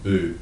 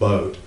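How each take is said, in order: First: The vowel is a long 'oo' sound. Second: The vowel is a long 'oh' sound. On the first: The speaker calls it wrong. "please don't pronounce it boot" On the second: The speaker calls it right. "it's pronounced boat"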